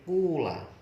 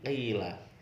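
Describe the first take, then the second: First: The first vowel is a clear u sound. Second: The first vowel is a clear i sound. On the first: "huruf awalnya dibaca dhammah" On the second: "huruf awal dibaca kasroh"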